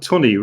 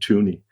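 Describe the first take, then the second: First: The first vowel is a short uh sound. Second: The first vowel is a long oo sound. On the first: This is how the name is really said. The speaker calls it right. "Tunney rhymes with money" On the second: This is how someone else says the name. The speaker calls it wrong. "You pronounce Tunney like like Mike Tyson does"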